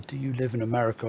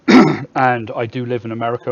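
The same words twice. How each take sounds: First: Said in the usual way. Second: Firm correction, louder on do; stress on do. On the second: Real, not acted. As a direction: do live in America, louder, do pressed hard. Answering viewer, emphatic correction.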